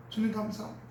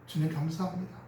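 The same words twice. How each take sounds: First: Soft prayer. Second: Grateful prayer. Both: Shown as a demonstration. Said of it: "은혜가 와요".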